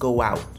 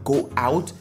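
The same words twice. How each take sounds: First: The words are linked with a w glide. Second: The two words are said separately.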